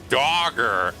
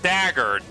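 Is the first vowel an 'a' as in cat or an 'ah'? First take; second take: ah; cat 'a'. First: The first vowel is an open 'ah' sound. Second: The first vowel is the 'a' of cat. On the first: The speaker calls it right. "in British, they pronounce A as ah" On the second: The speaker calls it wrong. "not Dagger"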